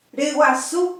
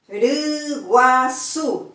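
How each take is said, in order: First: Said in the usual way. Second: Riguazú drawn out slowly, syllable by syllable. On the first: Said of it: "que es gallina". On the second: Shown as a demonstration. Teacher splitting a word into syllables, slowly. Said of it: "tres sílabas".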